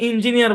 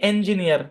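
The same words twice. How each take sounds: First: The first syllable sounds like 'in'. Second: The first syllable sounds like 'en'. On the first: The speaker calls it wrong. "আমরা এটাকে অনেকে ইঞ্জিনিয়ার বলি" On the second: The speaker calls it right. "কিন্তু এটা original হচ্ছে ইঞ্জিনিয়ার"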